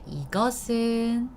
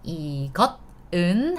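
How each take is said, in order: First: The final consonant links into the next syllable. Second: The two parts are said separately, without linking.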